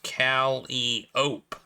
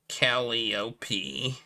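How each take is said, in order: First: The word ends with an 'ope' sound. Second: The word ends with an 'ee' sound. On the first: It names the steam organ. "the instrument was usually pronounced Calliope by people who played it" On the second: It names the Greek muse. "The Greek muse by the same name is pronounced Calliope"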